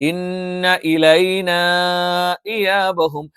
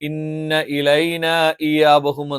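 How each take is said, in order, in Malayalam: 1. ഹംസയ്ക്ക് മുമ്പുള്ള സ്വരം അധികം നീട്ടിയാണ് പറയുന്നത്. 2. ഹംസയ്ക്ക് മുമ്പുള്ള സ്വരം ചെറുതായി മാത്രമേ നീട്ടുന്നുള്ളൂ. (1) "നീട്ടുന്നതാണ് നല്ലത്" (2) "സാധാ നീട്ടൽ നീട്ടിയിട്ട്"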